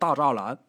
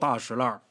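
First: The second syllable is pronounced 'zha'. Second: The second syllable is pronounced 'shi'. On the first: This is the dictionary reading. "你去字典上查，它也念大栅栏" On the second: This is how locals actually say it. "但是就得叫大石烂"

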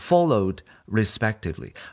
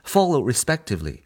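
First: The -ed ending is clearly sounded. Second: The -ed ending is barely sounded. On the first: The speaker calls it wrong. "不用读成" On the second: The speaker calls it right. "这里边呢也是一样的ED"

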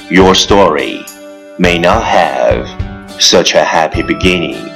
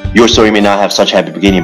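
First: It is spoken at an ordinary, unhurried pace. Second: It is spoken very fast in one breath. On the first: "let's repeat after me" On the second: "一口气，最快语速"

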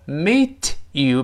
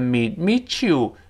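First: The t and y sounds are said separately. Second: The t and y merge into a ch sound.

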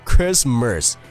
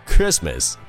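First: The last syllable has a curled-tongue r sound. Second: The last syllable has no r sound. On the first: The speaker calls it wrong. "它是不卷舌的，所以说永远不会读成Christmas" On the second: The speaker calls it right. "而是Christmas"

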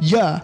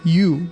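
First: The vowel is weakened to a short ya sound. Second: The vowel is a full long oo sound.

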